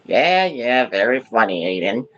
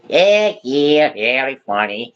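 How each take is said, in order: First: It is said in his normal voice. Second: It is said in a Luigi impression voice.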